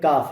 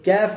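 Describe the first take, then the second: First: The vowel is a pure open 'aa' sound. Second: The vowel is tilted toward an 'ay' sound. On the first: The speaker calls it right. "ये काफ है" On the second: The speaker calls it wrong. "ये कैफ नहीं है"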